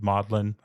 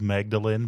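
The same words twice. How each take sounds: First: It is pronounced unlike its spelling. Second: It is pronounced the way it is spelled. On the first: "apparently they pronounce it Magdalen" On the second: "It's spelled Magdalen"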